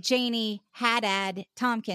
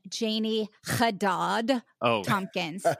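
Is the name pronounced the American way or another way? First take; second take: American; another way. First: The name is said in an American way. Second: The name is said in a non-American way. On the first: This is how the name's owner says it. The speaker calls it right. "I say Janie Haddad Tompkins, yeah, just the way that you say it, because I was born here in America" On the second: This is how other people say the name. The speaker calls it wrong. "They like to say"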